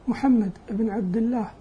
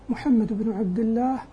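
No difference in how they are said.

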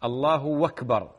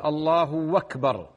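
First: The u vowel stretches into a w before akbar. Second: The u vowel stretches into a w before akbar.

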